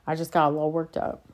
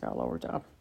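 First: Said in the usual way. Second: Much lower, softer put-on voice; deep mock voice. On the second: Shown as a demonstration. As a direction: repeat it in a deep goofy voice.

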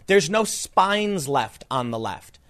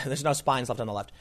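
First: "no spines left on the left" said slowly, each word landed; slow punchline. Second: Softer repeat of "there's no spines left on the left" through a laugh. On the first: Host delivering his joke about the left, slow and deliberate. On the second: Host repeating his own joke, laughing softly. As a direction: chuckle at your own line as you say it again. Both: Real, not acted.

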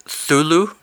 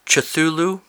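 First: "Thulu" tried as a question, high with no opening consonant; unsure pronunciation. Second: "Cthulhu" tried as a question, with an extra opening syllable before th; unsure pronunciation. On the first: Reader guessing at a hard name, unsure "Thulu". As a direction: tentatively say "Thulu", starting on the th. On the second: Reader having another go at a hard name, unsure "Cthulhu". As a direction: tentatively sound out "Cthulhu" in full, pitched up. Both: Real, not acted. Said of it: "don't know how to pronounce it".

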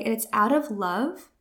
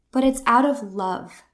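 First: Said in the usual way. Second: It's pressed a little louder; stress on it's. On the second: Shown as a demonstration. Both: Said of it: "That's really key here".

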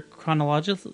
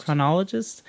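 First: "chronologist." swallowed, ending like kron-AH-luh-zhuh; "chronologist." with a blurred, unfinished end; unsure pronunciation. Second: "Chronologist," clear, kruh-NAH-luh-jist; "Chronologist," with every syllable and the final -ist; corrected pronunciation. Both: Real, not acted. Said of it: "How, how do you say it?".

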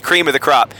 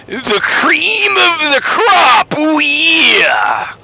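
First: Said in the usual way. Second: Raspy, high wrestling promo shout; Macho Man Randy Savage. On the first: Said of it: "Google Macho Man Randy Savage". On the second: Retold or imitated. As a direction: growl it out like a hyped wrestler. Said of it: "as Macho Man Randy Savage would say".

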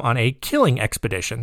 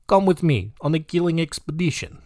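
First: Said in the usual way. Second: Higher, put-on Russian accent; mock villain inviting a friend in a Russian accent; comic Russian-accented invitation. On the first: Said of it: "That's what he called it". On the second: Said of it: "I've got the Russian guy now".

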